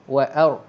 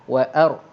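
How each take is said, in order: The two takes are said the same way.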